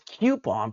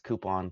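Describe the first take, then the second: First: The first syllable sounds like the letter Q. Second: The first syllable sounds like the word coop. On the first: "put a Q" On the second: "put a coop"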